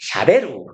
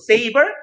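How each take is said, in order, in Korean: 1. 일본식으로, 'sha-be-ru'라고 해요. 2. 영어식 발음으로, 'say-ber'라고 해요. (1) "이 외국 발음입니다" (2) "세이버 원래 거, 칼이에요"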